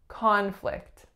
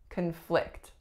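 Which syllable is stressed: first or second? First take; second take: first; second. First: The stress is on the first syllable. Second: The stress is on the second syllable. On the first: It is used as a noun. "the first sound is ah, that is our winner" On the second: It is used as a verb. "my strongest syllable is I"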